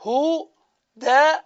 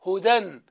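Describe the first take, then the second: First: هدى stretched very slowly on its final vowel; هدى sung out long and slow; drawn-out huda. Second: Said in the usual way. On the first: Shown as a demonstration. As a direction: draw out هدى slowly, holding the last vowel. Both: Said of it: "ماذا ستقول؟".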